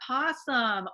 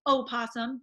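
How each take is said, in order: First: The word starts directly with a P sound. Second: The word starts with a vowel before P. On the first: "depending on how you want to pronounce that" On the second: "there is an O there"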